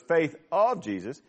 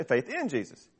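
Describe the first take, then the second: First: "of" stressed against the other wording. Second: "in" picked out as the contrast; stress on IN. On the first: Preacher comparing translations for the congregation, stress on "of". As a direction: lean on the word "of". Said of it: "other translations say faith in Jesus". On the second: Preacher giving the other translations' wording, stress on "in". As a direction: punch the word "in". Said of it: "The other translations say". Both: Shown as a demonstration.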